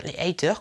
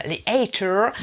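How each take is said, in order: First: Said in the usual way. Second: "haters" with a drawn American r; mock American accent. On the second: YouTuber slang being explained, mock American accent. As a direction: ham up "haters" American-style. Hammed-up take of the English word.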